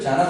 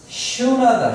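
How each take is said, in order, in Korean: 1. 이 단어는 'j' 소리로 시작해요. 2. 이 단어는 'sh' 소리로 시작해요. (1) "이걸 영어로 하면 자나로 읽는데" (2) "실제 발음이 뭐다?"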